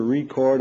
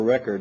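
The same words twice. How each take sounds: First: "record" as ree-CORD, stress on the second syllable; verb pronunciation. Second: "record" as REK-erd, stress on the first syllable; noun pronunciation. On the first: Lecturer giving one of two readings, "record" as re-CORD. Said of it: "either record or record, one of the two". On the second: Lecturer giving the other reading, "record" as REC-ord. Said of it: "one of the two". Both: Shown as a demonstration.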